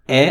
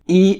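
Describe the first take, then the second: First: The letter is said with a French pronunciation. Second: The letter is said with an English pronunciation.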